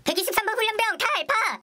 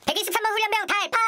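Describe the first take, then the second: First: Military roll call shout. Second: Fast, higher barked reply; military roll call shout. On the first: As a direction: shout the number at attention. Recruit answers roll call again. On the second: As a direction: snap out the answer like a recruit. Recruit answers roll call. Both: Acted.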